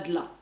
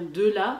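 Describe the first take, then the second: First: The e of de is dropped. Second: The e of de is fully pronounced. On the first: The speaker calls it wrong. "et pas de là" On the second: The speaker calls it right. "on pense bien à dire de là"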